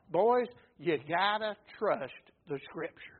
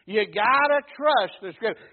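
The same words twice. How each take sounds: First: A hint of a kind teacher telling his disciples; Jesus teaching gently. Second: Said in the usual way. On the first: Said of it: "He, he taught them, first of all".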